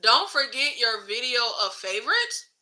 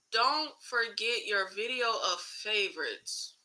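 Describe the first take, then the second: First: "Don't forget your video of favorites", lifting into a question at the end; baffled read-aloud, "favorites" going up; puzzled reading. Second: Slow, soft read-aloud with a falling end; drawn-out, quieter second look at a baffling comment; slow puzzled rereading. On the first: Puzzled reading of chat comment. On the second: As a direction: go through "Don't forget your video of favorites" word by word, quietly. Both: Real, not acted.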